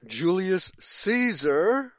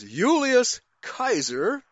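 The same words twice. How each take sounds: First: "Julius" with English J, "Caesar" as SEE-zer; English pronunciation. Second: Slow, higher "Julius" as YOO-lee-us, "Kaiser" with hard K; Latin pronunciation. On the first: Teacher rejecting the modern form, "Julius Caesar" with English J and S sound. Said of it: "not Julius Caesar". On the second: Teacher giving the correct old form, "Julius" with a Y sound, slowly. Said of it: "as if you said". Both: Shown as a demonstration.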